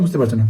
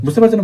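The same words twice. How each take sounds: First: Quiet repeat. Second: A higher, rising check-in question; high asking. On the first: Teacher echoes her own question to the class, low and soft. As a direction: lower and softer falling echo. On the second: Teacher asks her class if they follow, pitched high and rising. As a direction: lift the question high to draw students in. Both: Real, not acted.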